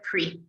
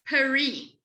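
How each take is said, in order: First: The first vowel drops; one syllable. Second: A vowel separates p and r; two syllables. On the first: This is the fluent, everyday form. "as you become more fluent... instead of saying peri, you say pre" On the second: This is the careful, textbook form. "mechanically it's peri, and it is, it's correctly peri"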